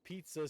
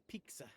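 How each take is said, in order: First: Said in the usual way. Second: "pizza" said as PEEK-suh; K-S replacing T-S in "pizza"; imitated pronunciation. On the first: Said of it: "instead of pizza". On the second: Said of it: "she says pizza".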